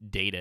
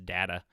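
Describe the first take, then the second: First: It is said with the usual American vowel. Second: It is said with a European-style vowel. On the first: The speaker calls it right. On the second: The speaker calls it wrong.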